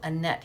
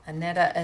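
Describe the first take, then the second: First: The name ends with a t sound. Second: The name ends with an added vowel. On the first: This is how it is said in the United States. "I think we pronounce it Annette here in the States" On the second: This is how it is said in Denmark. "is what I think they pronounce it over in Denmark"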